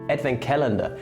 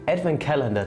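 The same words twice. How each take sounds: First: It is said with an English pronunciation. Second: The same.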